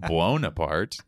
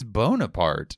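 First: The name starts with a 'bwo' sound, with u. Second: The name starts with a plain 'bo' sound. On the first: The name sounds Corsican. "not Corsican" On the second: The name is meant to sound French, not Corsican. "He takes out the U"

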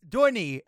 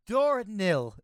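First: The word ends without an L sound. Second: The word ends with an L sound. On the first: The speaker calls it right. "There's no L in there" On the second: The speaker calls it wrong. "I don't know why I got L"

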